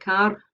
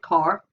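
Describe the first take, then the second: First: A Scottish accent, with the r pronounced. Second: A Northern Irish accent, with the r pronounced. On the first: "in Scottish English, something like car" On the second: "if we were in Northern Ireland, we'd get car"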